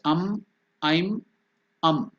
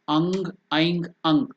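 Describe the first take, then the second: First: The syllables end with a closed m sound. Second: The syllables end with a nasal ng sound. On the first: This is how it is said in South India. "In South India it pronounced as" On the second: This is how it is said in Bengal. "In Bengal it is pronounced as"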